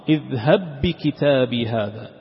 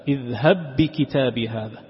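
No difference in how they are said.

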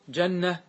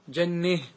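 First: The vowel before the final h stays open. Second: The vowel before the final h leans toward e.

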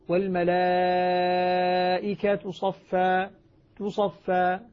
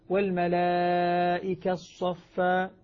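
First: The T is heard with a faint u vowel. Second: The T merges while the lips round briefly. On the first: "في الروم أظهر التاء ... ضمة خفيفة مختلسة" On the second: "لو أني أردت أن آتي بالإشمام"

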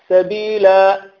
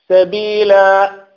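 The two takes are said the same way.

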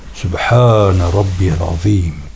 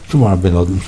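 First: The phrase is fully articulated, every syllable pronounced. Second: The phrase is clipped, with syllables swallowed. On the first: The speaker calls it right. "Onun esas Arapçası" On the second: The speaker calls it wrong. "günümüzde bazılarının yaptığı gibi"

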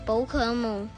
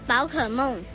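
First: The word is pronounced in Cantonese. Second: The word is pronounced in Mandarin. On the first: "广东话怎么讲啊？" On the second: "你说普通话吗？ 嗯"

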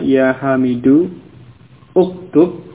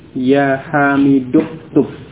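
First: The vowel starting uktub is pronounced separately. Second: The vowel is dropped and the words run together. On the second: "hamzah wasal tidak diucapkan"

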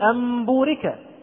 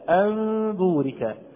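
First: The m is clear, lips fully closed. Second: The m is hidden, lips slightly apart. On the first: The speaker calls it wrong. "وإلا فات ميم هنا صريحة، ليست مخفاة" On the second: The speaker calls it right. "أنا لا أضم الشفتين ضما كاملا، ولكن هناك انفراجة خفيفة"

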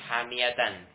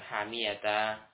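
First: The word ends with a -tan sound. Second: The word ends with a -ta sound. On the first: This is the full form with tanwin. "fathatain di sini" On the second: This is a wrong way to stop on it. "ketika waqaf bukan hamiyata"

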